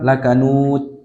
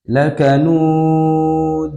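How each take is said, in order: First: The final d is carelessly clipped without bounce. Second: The final d is overdone and closed with a catch. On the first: "tidak boleh pula serampangan" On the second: "ini takalluf"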